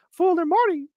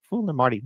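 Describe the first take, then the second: First: Squeaky high cartoon mouse voice; Mickey Mouse voice. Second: Said in the usual way. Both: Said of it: "how about with Mickey".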